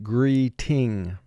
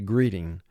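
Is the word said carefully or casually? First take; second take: carefully; casually. First: It is said carefully, with every sound exaggerated. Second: It is said casually, with relaxed sounds. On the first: The pronunciation matches the spelling for spelling practice. "we exaggerate the pronunciation of the letters and the syllables" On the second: This is how it sounds in everyday conversation. "in conversation you would probably say greeting"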